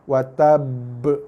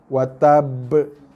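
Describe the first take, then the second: No difference in how they are said.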